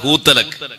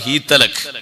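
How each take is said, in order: First: The first vowel is a long oo. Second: The first vowel is a long ee. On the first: "വേറെ ഖിറാഅത്ത്" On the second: "വേറെ ഖിറാഅത്ത്"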